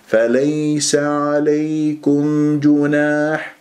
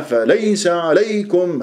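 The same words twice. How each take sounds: First: فليس عليكم جناح chanted slowly on one even note; smooth gentle leen. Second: فليس عليكم with a jolting punch on each ي; wrongly stressed leen. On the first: Teacher models correct recitation, smooth slow even chant. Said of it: "مليونة وسلاسة ولطافة". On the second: Teacher mimics the faulty stressed recitation, jerky فليس عليكم. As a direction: jab the ya in فليس and عليكم, pitch jumping. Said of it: "تنبر لي فليس عليكم". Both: Shown as a demonstration.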